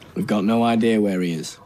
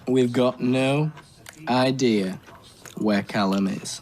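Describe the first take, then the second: First: It is said at a normal speed. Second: It is said slowly and deliberately.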